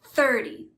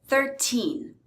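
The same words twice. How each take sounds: First: "thirty" stressed on "thir", short weak "ty". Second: Put-on "Thirteen" with long, stressed "teen". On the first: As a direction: punch the start of "thirty". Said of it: "stress is on the first syllable". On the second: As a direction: lean on the end of "Thirteen". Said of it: "the stress is on the teen". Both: Shown as a demonstration.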